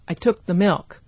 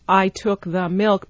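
First: Unstressed syllables are reduced and said quickly. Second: Every syllable is equally full and clear.

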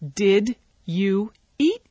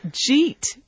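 First: Each word is said fully and separately. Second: The words are squeezed into one short syllable. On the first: "if we were to pronounce that, you know, the way it's written" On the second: "in rapid spoken English, the did you gets reduced"

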